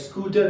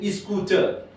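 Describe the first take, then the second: First: The word begins directly with the s sound. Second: An extra vowel is added before the s.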